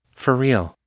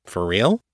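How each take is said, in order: First: REAL falling, a firm answer; confirming. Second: REAL rising into a question. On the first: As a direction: confirm it, "real" dropping at the end. Abby confirms the question. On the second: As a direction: ask it, with "real" swooping upward. Jenna's surprised question to telepath. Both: A narrator's reading.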